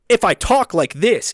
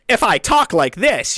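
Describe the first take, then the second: First: It is said in his ordinary natural voice. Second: It is said in a put-on impression voice.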